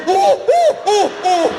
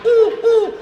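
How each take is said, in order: First: Startled owl shrieking very high and loud; violated owl hoot. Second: High, loud imitated owl hoots. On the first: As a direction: hoot in alarm, pitched far up, then dropping. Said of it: "Am I being fingered?". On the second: Showing the crowd how an owl sounds, owl hooting. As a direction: hoot like an owl, two loud "oohs". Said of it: "What does an owl sound like?". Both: Shown as a demonstration.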